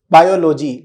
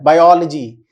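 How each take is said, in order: First: "बायोलॉजी" as bio-LO-jee, with full O vowels; wrong pronunciation. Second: "बायोलॉजी" as bai-OL-uh-jee, stress on OL; corrected pronunciation. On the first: Teacher showing students the wrong लॉजी, mispronounced as bio-lo-jee. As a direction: say "बायोलॉजी" with a long "lo", as separate parts. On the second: Teacher correcting students' लॉजी, stressed as bai-OL-uh-jee. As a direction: punch the OL in "बायोलॉजी" and reduce what follows. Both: Shown as a demonstration. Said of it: "लॉजी नहीं होता है".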